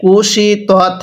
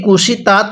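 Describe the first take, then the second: First: কুশি তত with heavy, rounded "tot" at the end; correct reading. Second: কুশি তাঁত with open "a" in the last syllable; incorrect reading. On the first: Teacher showing how it must be read, correct heavy "tot". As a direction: recite কুশি তত as "kuu-shii tot", vowels held. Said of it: "কিভাবে পড়তে হবে?". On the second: Teacher showing learners the faulty reading, incorrect light "taat". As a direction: say কুশি তাঁত as "kushi taat", vowels unstretched. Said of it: "পড়াটা সহি শুদ্ধ হবে না". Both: Shown as a demonstration.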